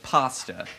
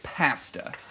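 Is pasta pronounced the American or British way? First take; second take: American; British. First: Pasta is pronounced the American way. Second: Pasta is pronounced the British way. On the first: "instead of pasta" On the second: "the English say pasta"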